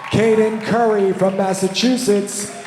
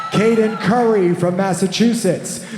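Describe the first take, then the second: The two takes are said the same way.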